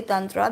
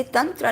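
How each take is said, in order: First: "tantra" said as tun-TRAA with an open, longer ending; anglicised pronunciation. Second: "tantra" said quickly as tun-tra, short first vowel; authentic pronunciation. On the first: Teacher admitting she adapts it, anglicised pronunciation. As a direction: open up the last a of "tantra" for outsiders. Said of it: "even I have to say tantra". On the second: Teacher showing what nobody would understand, authentic pronunciation. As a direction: keep "tantra" Indian, a short uh in the first syllable. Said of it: "no one's gonna understand". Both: Shown as a demonstration.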